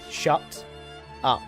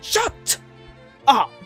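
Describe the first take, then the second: First: It is said flatly, like a full stop. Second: It is said forcefully, like an exclamation.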